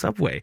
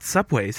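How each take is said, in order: First: The word ends without any s sound. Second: The word ends with an added s sound. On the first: The speaker calls it right. "just Subway" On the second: The speaker calls it wrong. "it's not Subway's"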